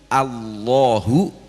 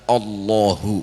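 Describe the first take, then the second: First: The vowel before the L is a clear 'a'. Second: The vowel before the L sounds dark, like 'o'. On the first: The speaker calls it right. "alif fathah itu a" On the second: The speaker calls it wrong. "bukan o"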